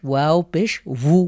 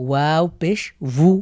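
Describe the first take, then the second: No difference in how they are said.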